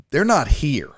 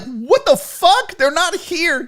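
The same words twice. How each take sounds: First: Said in the usual way. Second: High, slow, incredulous; stunned host echoing bad news; shocked disbelief. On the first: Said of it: "this lady looks at me and goes". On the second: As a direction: repeat it as if you can't believe it. Learns the guests are missing.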